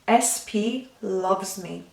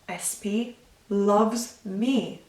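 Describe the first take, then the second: First: It is said with feeling and focus. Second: The same.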